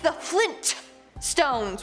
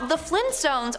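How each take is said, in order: First: The T in the middle is clearly pronounced. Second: The T in the middle is dropped. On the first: "with the hard T" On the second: "pronounced as so"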